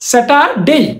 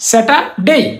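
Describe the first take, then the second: Both takes have the same delivery.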